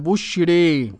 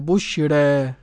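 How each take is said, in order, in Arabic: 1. الحركة الأخيرة مائلة تماماً نحو e. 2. الحركة الأخيرة بين a و e. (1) "وبالإمالة الكبرى" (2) "بتقليل الألف المنقلب عن ياء بعد راء ... لازم ترقق مع الايه التقليل"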